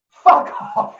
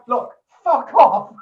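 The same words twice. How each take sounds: First: Loud, high snapped fuck off; angry shout. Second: Loud, high, slow look fuck off; slow angry shout. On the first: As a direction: bark it at the drunk guest. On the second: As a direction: bellow it slowly to drive him away. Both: Retold or imitated. DJ shouting at drunk guest.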